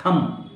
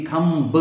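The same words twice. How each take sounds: First: थंब ending on M, no B; silent B. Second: थंब with a separate "buh" at the end; B wrongly sounded. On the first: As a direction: say थंब as "tham", B left silent. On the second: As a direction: mispronounce थंब by sounding the final B. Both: Shown as a demonstration. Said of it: "बा नहीं बोलेंगे".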